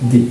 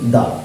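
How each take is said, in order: First: The word ends in an 'ee' vowel. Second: The word ends in a short 'uh' vowel. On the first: The next word starts with a vowel. "শব্দটি যদি কোনো vowel দিয়ে শুরু হয় তবে তার উচ্চারণ হবে দি" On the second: The next word starts with a consonant. "শব্দটি যদি একটি কনসোনেন্ট দিয়ে শুরু হয় তবে তার উচ্চারণ হবে দা"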